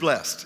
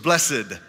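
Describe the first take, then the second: First: The word is said the plain way. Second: The word is said the old religious way. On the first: It is the ordinary reading of the word. "it's really just blessed if you just look at it" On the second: It sounds more religious. "it was blessed. You just sound a little more religious if you say blessed"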